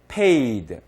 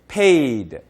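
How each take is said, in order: The two takes are said the same way.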